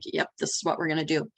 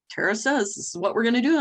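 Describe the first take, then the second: First: Retold quick, settled reply; matter-of-fact confirmation. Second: Retold team question, higher and rising at the end. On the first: Boss answering her team about the plan, matter-of-fact. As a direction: confirm briskly, falling back to usual pitch. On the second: Team checking the boss's plan, questioning. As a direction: mimic the team checking, quick and high.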